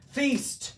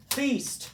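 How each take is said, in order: Both takes have the same delivery.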